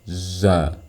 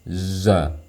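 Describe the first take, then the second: No difference in how they are said.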